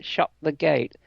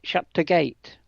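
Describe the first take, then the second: First: Said in the usual way. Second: Lancashire accent, "the" swallowed to a quick t' before gate. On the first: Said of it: "instead of saying something like". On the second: Shown as a demonstration. Mother showing how Lancaster folk talk: Lancashire accent. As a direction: clip "Shut the gate" the Lancaster way, barely a t' for the. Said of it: "they say".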